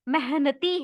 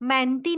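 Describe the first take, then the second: First: The middle h sound is clearly pronounced. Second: The middle h sound is not clearly pronounced. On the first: The speaker calls it right. "ह का उच्चारण करना है" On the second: The speaker calls it wrong. "मेहनती नहीं है वो"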